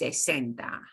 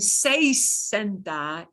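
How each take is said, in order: First: The first vowel is a short plain 'e'. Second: The first vowel glides like 'ay'. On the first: The speaker calls it right. "it's just sesenta. We shorten it. We take out the I" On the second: The speaker calls it wrong. "instead of saying"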